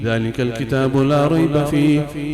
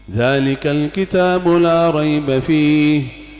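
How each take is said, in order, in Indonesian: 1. Dibaca dengan cepat dan lancar. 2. Dibaca dengan tempo yang lebih pelan dan teratur. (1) "Kalau bacanya cepat sudah biasa, misal begini" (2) "Tapi kalau standar kurang lebih dua jam"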